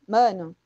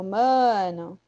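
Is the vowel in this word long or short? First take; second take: short; long. First: The first vowel is short and quick. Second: The first vowel is drawn out long. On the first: "a vogal A, né, com som curto" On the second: "quando a gente alonga uma vogal, a gente quer dar uma ênfase"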